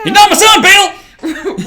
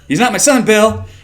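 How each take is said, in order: First: It is said in a put-on Southern accent. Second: It is read in a plain, neutral accent.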